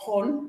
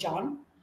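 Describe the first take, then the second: First: The name starts with a breathy H sound. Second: The name starts with a J sound. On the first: The speaker calls it wrong. "We don't say" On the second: The speaker calls it right. "We say John. Right, the j sound"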